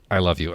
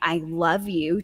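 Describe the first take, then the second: First: It is said in a strained, uncomfortable way. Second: It is said in an easy, comfortable way.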